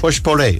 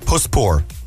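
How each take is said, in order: First: The name ends like potpourri. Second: The name does not end like potpourri. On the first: The speaker calls it right. "So think potpourri and think Pushpure" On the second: The speaker calls it wrong. "Am I saying it right?"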